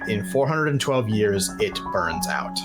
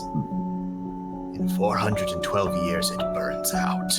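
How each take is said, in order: First: It is spoken in a plain, normal speaking voice. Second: It is spoken in a strained, choking character voice. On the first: "not in a character voice and not in a horse voice" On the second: "You hear him try to choke the words out"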